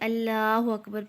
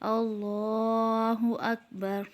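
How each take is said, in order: First: The L in Allahu is light and thin. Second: The L in Allahu is heavy and thick. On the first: The speaker calls it wrong. "अब अल्लाहु अकबर भी गलत है" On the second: The speaker calls it right. "सही तरीका क्या है?"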